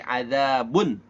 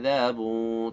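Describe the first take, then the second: First: The final n sound is very clear. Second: The final n sound is muffled. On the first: The speaker calls it right. "suara nunnya itu jelas banget" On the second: The speaker calls it wrong. "tidak baca adzabun"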